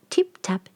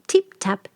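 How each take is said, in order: Both takes have the same delivery.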